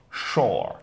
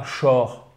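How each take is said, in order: First: "Shore" with a long, open vowel from the throat; throaty long vowel. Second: "shore" with a short, French-like o; wrong short vowel. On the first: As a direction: drop the throat and lengthen "Shore". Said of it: "Vraiment, faut le faire avec la gorge". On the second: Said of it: "Et pas shore". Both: Shown as a demonstration.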